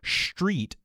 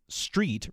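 First: It begins with a strong, exaggerated sh sound. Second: It begins with a slight sh sound. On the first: The speaker calls it wrong. "It's not so much street" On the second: The speaker calls it right. "but it is street"

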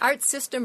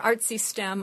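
First: It is split as 'art' plus 'system'. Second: It is split as 'artsy' plus 'stem'. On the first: The speaker calls it wrong. "you can pronounce it either Art System" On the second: The speaker calls it right. "or Artsy STEM. I like Artsy STEM better"

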